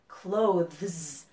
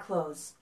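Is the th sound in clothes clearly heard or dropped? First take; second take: clear; dropped. First: The th sound before the z is pronounced clearly. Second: The th sound is dropped, sounding like close. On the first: "the zzz sound" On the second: "when I talk fast, you almost can't tell the difference"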